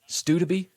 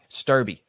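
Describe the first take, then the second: First: The name has a D sound and an extra syllable. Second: The name has no D sound in it. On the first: The speaker calls it wrong. "but not Studerby. ... There's a silent D and it's also invisible" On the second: The speaker calls it right. "It looks like Sturby"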